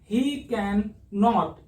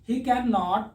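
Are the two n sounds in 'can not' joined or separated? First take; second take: separated; joined. First: The n of can and not are separate. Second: The n of can and not are merged. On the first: The speaker calls it wrong. "ऐसे नहीं पढ़ना ही कैन नॉट, इस तरीके से नहीं पढ़ना" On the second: The speaker calls it right. "दोनों एन को एक साथ पढ़ने की कोशिश करनी है"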